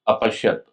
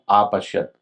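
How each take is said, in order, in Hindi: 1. पहला स्वर छोटा 'a' है। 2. पहला स्वर लंबा 'aa' है। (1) "आ नहीं बोलना है, अ बोलना है" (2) "अंतर है दोनों में। तो आ नहीं बोलना है"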